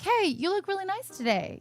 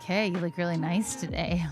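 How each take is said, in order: First: It is said in a plain, friendly way. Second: It is said in a sketchy, creepy way.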